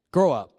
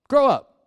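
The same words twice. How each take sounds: First: Said in the usual way. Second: "Grow up." higher and louder, insistent; louder scolding. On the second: Acted. Pastor repeating his rebuke to teens, louder. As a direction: hit it harder the second time.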